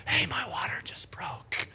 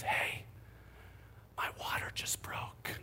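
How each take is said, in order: First: Slow, breathy imitated whisper; mock whisper. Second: Soft unvoiced whisper. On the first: Husband mimicking wife's calm news, in a whisper. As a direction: whisper it far too calmly for the news. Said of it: "the tone of that did not match". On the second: Wife waking her husband at night, whispering. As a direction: whisper it gently so as not to startle.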